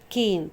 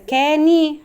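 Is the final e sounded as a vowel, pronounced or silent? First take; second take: silent; pronounced. First: The final e is silent, with a long vowel. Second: The final e is sounded as an extra vowel. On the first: The speaker calls it right. "هي اسمها كين" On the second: The speaker calls it wrong. "لو انا هنطقها بالاصوات تبقى كاني"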